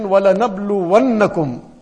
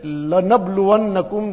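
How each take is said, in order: First: وَلَنَبْلُوَنَّكُمْ said a little louder, doubled noon near the end held; stress on the doubled noon. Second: لَنَبْلُوَنَّكُمْ with the opening lam leaned on for emphasis; stress on the lam. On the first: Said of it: "the noon with the tashdeed at the end". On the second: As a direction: say لَنَبْلُوَنَّكُمْ quickly, hitting the first lam. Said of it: "that lam at the beginning". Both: Shown as a demonstration.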